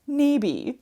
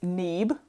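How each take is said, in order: First: The final vowel of the name is pronounced. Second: The final vowel of the name is silent. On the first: The speaker calls it right. "You can just call me by my last name" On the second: The speaker calls it wrong. "following that good old first one long, second one gone rule"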